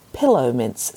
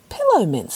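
First: Said in the usual way. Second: Higher, puzzled echo of "Pillow mints"; children echoing, higher. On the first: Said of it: "said Grandmother". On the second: Acted. Children echo grandmother, higher and puzzled. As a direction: repeat "Pillow mints" up high in disbelief. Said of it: "said the children".

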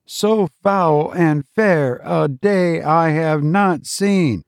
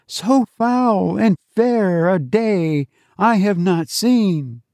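First: Robot teacher quoting. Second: Put-on higher, children's chorus; the class repeating the teacher's line, higher; children reciting in chorus. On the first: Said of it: "Repeat the quotation after me". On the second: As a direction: lift it like a class reciting together. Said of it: "The children's voices lifted". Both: A narrator's reading.

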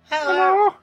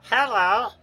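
First: Squeaky, much higher hello; helium voice. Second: Said in the usual way. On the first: Shown as a demonstration. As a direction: pitch it way up like helium. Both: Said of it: "do your best helium voice".

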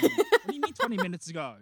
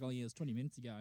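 First: High, loud mock exasperation; acted exasperated yell; incredulous outburst. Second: Casual cop answer. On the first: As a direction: demand it, voice shooting up. Exasperated detective in dream. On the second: Retold or imitated. Casual officer answers detective.

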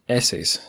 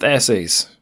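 First: Said in the usual way. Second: Bold text voice. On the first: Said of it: "essays is also bolded. Let's redo that". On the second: Shown as a demonstration. Host redoing the bolded blurb words, bold text voice. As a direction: say essays big, as if bolded. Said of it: "essays is also bolded".

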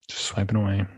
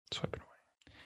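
First: Said in the usual way. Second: Breathy whispered repeat of swiping away, voice dropped right out; whispered echo. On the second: Shown as a demonstration. Echoing the girlfriend's phone swiping in a whisper. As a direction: let swiping away fall to a soft whisper. Echoes previous line, whispered.

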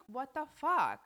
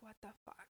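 First: Loud, exasperated what the fuck; outraged outburst. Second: Much softer, deflated what the fuck; muttered disbelief. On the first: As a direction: blurt it out in real disbelief. Outraged rant about scamming friend. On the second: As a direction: say it almost to yourself, worn out. Repeating disbelief, trailing off. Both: Real, not acted.

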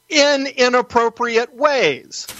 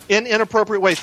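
First: In inappropriate ways drawn out slowly and pitched higher, each word leaned on; slow, high, deliberate emphasis on in inappropriate ways; emphatic stress. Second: Inappropriate punched hardest while In and ways stay lighter; stress on inappropriate. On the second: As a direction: repeat it, landing on inappropriate. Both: Shown as a demonstration. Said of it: "The bill actually says that".

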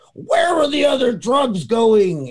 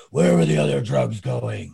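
First: Much higher, loud, slow growled shout; mock Batman voice. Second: Same line, voice gone after coughing; lost-voice Batman. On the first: Retelling a sketch, Batman shouts at an upside-down crook in a Batman voice. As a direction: bark the threat like a cartoon Batman. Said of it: "What voice is that?". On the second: Retold or imitated. Retelling a sketch, Batman repeats the threat after losing his voice. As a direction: croak it out as if the voice just gave out. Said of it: "I just lost my voice".

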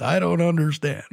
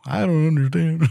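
First: Lightly voiced grumpy old man; a hint of a cranky old man. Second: Put-on old man voice. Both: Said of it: "that was my old man voice".

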